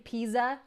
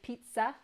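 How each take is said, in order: First: The middle consonant is a plain z sound. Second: The middle consonant is a ts sound. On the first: The speaker calls it wrong. "you don't say pizza" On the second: The speaker calls it right. "you say pizza. S- s- that T Z"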